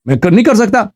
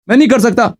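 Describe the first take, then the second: First: Said in the usual way. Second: نہیں pressed firmly as the key word; firm refusal on نہیں; stress on nahin. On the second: Real, not acted. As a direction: lean into نہیں to correct yourself.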